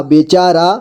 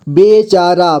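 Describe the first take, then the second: First: Said in the usual way. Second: बेचारा in measured, separate syllables. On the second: Shown as a demonstration. Teacher showing learners how to read बेचारा, syllable by syllable. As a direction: sound out बेचारा piece by piece. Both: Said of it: "जोड़ जोड़ करके".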